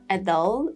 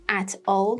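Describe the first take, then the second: First: The word 'at' has a reduced schwa vowel. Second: The word 'at' has a full vowel. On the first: The speaker calls it right. "For at, it would become it" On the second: The speaker calls it wrong.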